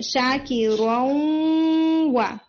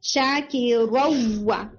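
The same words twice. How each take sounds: First: शाकिरौवा stretched very slowly with a half-nasal nun before the waw; nasal half merge. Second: शाकिरौवा recited very slowly, nun fully merged into the waw; full merge recitation. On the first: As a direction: hold शाकिरौवा long and let the nasal ghunna ring through. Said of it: "जब आप गुन्ना add कर लेते हैं ना". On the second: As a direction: draw out शाकिरौवा with a complete merge, no nasal. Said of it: "तो इसको ऐसे पढ़ना चाहिए". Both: Shown as a demonstration.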